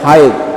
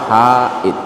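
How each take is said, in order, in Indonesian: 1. Vokal setelah h dibaca pendek. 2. Vokal setelah h dibaca panjang. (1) "Kalau dipendekkan" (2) "Kalau haid ada alif setelah ha"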